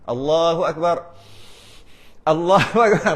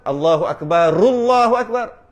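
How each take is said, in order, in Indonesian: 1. Ada jeda napas yang memisahkan kedua frasa ini. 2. Kedua frasa ini disambung tanpa jeda. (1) "kalau nak mati tarik nafas" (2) "Ini sambung ni"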